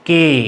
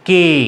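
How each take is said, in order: The two takes are said the same way.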